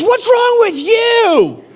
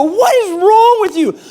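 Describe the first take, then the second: First: High, loud and drawn-out mock yell; slow imitated screech of an outraged wife; wife's shrieked retort. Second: High, loud mock outrage; acted indignant shriek; startled yell back. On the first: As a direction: stretch it out, throwing it back at him. Wife throws the question back. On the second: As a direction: yell it back in a pitched-up panic. Startled couple's shouting, retold.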